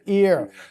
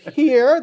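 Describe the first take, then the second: First: The word begins without an h sound. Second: The word begins with an h sound. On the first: "they would say ear" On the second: "Instead of here"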